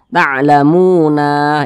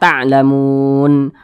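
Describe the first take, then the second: First: The word ends with a vowel after the n. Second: The word ends on a stopped n sound. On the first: The speaker calls it wrong. "jangan dibaca ta'lamuna, itu salah" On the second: The speaker calls it right. "tapi dibaca ta'lamun"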